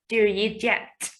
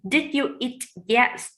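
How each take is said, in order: First: The words run together, fast and short. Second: Each word is said fully and clearly. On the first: "The very fast and the short" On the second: "for the question"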